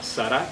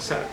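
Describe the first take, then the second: First: The stress is on the last syllable. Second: The stress is on the first syllable. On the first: "Sarah con acento en la última A" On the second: "como le conocen por allí en el mundo occidental"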